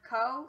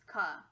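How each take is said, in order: First: The vowel is a full 'oh' sound. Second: The vowel is a weak 'uh' sound. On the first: "instead of co" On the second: "it's ka"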